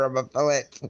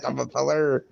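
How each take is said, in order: First: Fellet, said with a short e and a final t; fellet, as the wrong word; says fellet. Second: Feller, said fell-uh with a dropped r; feller, as the right word; says feller. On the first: Mocking the wrong word to a friend, saying fellet. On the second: Correcting a friend, saying feller. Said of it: "I'm not a fellet". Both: Shown as a demonstration.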